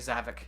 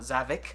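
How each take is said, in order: First: The final 'ik' is pronounced lightly and relaxed. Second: The final 'ik' is pronounced with exaggerated force. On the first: This is how the speaker says it. The speaker calls it right. "I say Zavik" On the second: This is how some other people say it. The speaker calls it wrong. "Not Zavik"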